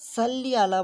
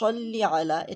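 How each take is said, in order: First: The first s is a plain, light sound. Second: The first s is a heavy, emphatic sound. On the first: The speaker calls it wrong. "সাল্লি আলা বলা যাবে না" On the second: The speaker calls it right. "এটা সিন না, এটা হচ্ছে সদ"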